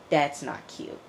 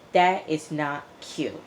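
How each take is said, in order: First: Said in the usual way. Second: "That is not cute" slowed, "is" spelled out and stressed; slow emphasis. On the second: Shown as a demonstration. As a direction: drag it out, leaning on "is".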